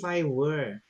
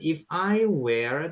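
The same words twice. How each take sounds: First: The last word rhymes with 'her'. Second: The last word rhymes with 'air'. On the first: It is the past form of be. The speaker calls it right. "tapi if I were" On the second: It means a place. The speaker calls it wrong. "bukan if I were"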